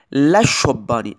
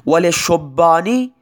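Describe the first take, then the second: First: Slow لشبانی with an open "la"; fatha on the lam. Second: Slow وللشبانی with "li", not "la"; kasra on the lam. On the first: Teacher to students, slowly sounding the fatha in لشبانی. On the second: Teacher to students, slowly sounding the kasra in وللشبانی. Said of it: "لام للشبان کسره دارد". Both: Shown as a demonstration.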